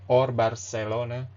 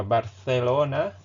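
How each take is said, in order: First: "Barcelona" with an S for the C; Latin American C. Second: "Barcelona" with a lisped th for the C; Spain Spanish C. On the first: Teacher contrasts Latin American "Barcelona" for learners. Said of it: "the C is always pronounced like S". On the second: Teacher demos Castilian "Barcelona" for learners. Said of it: "the C is pronounced like T H, th". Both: Shown as a demonstration.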